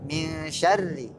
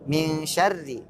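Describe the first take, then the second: Both takes have the same delivery.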